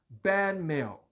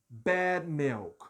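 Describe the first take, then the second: Both takes have the same delivery.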